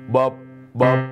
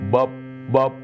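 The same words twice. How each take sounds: The two takes are said the same way.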